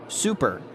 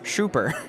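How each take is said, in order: First: The word begins with a clear 's' sound. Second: The word begins with an 'sh' sound. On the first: The speaker calls it right. "instead of super" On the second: The speaker calls it wrong. "my s's would sound like sh"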